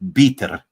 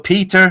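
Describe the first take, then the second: First: The word starts with a B sound. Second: The word starts with a plain P sound. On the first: "when they say the letter P, it sounds like B" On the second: "So Peter becomes"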